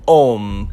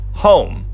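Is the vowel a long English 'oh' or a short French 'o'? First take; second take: short French; long English. First: It has a short French 'o' vowel. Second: It has a long English 'oh' vowel. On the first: The speaker calls it right. "But it's actually homme" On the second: The speaker calls it wrong. "you probably think this is pronounced like home"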